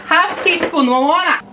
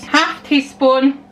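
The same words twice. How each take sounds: First: Higher-pitched mock yell in a put-on accent. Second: Drawn-out measure in a put-on accent; slow repeat. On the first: Baker calls out measure and name, mock yelling. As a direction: call out the measure with playful force. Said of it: "That's why I'm yelling at their names". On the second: Baker repeats half teaspoon while measuring, slow repeat. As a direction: stretch out both words slowly.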